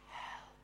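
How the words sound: The word is whispered softly.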